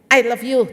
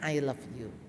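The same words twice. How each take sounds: First: It is snapped out in a harsh tone. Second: It is said in a normal, gentle tone.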